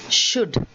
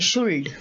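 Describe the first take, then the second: First: The L is silent in the word. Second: The L sound is pronounced in the word. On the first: The speaker calls it right. "it is should" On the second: The speaker calls it wrong. "we say should"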